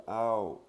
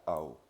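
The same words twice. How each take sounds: First: Ao with the vowel held long; long Thai vowel. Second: Ao with the vowel cut short; short Thai vowel. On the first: Teacher showing French learners the long vowel in ao. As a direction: stretch out the a of ao. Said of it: "la voyelle longue". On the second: Teacher showing French learners the short vowel in ao. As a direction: clip the a of ao quickly. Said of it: "c'est la voyelle courte". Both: Shown as a demonstration.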